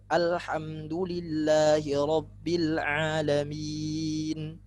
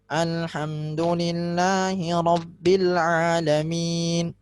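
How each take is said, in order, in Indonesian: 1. Bunyinya jelas, tidak lewat hidung. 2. Semua bunyinya lewat hidung.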